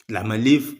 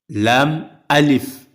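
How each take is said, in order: First: The two parts are run together as one. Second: The two parts are kept clearly separate. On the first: It is a single letter. The speaker calls it wrong. "on sent qu'il s'agit d'une lettre" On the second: It is two letters. The speaker calls it right. "il faut dire lam alif"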